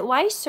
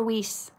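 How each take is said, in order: First: WEISZ rhyming with "ice"; first pronunciation option. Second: WEISZ rhyming with "fleece"; second pronunciation option. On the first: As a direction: say Weisz with a long I, like "wice". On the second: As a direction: say Weisz with a long EE, like "weece". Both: Shown as a demonstration. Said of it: "Is it Weisz or Weisz?".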